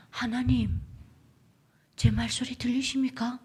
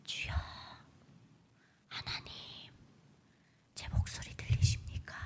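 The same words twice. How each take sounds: First: Plea to God in Hamgyong accent; Hamgyong-accented prayer, voiced aloud; Hamgyong dialect. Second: Hushed, whispered plea with long pauses; barely audible breath of a prayer; secret underground prayer. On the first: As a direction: pray with a North Korean Hamgyong lilt. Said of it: "함경도 사투리로". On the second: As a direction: whisper to God so nobody overhears. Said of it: "그렇게 불러요". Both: Shown as a demonstration.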